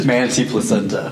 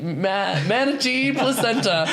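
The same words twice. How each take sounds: First: Said in the usual way. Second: A laugh breaks into the read; stifled laugh on the words; laughing through the words. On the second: Real, not acted. Presenter cracks up reading the product copy aloud. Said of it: "Ooh, that one got me".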